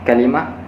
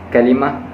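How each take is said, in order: Both takes have the same delivery.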